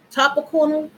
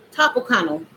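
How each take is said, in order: First: "Topical?" asked with a rising, doubtful tune; unsure question. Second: "Topical." said with a firm falling tune; "Topical." landed flat and certain; settled statement. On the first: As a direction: test the word out, unsure. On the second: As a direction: confirm it to yourself. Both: Real, not acted. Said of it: "Yeah, that's the right word".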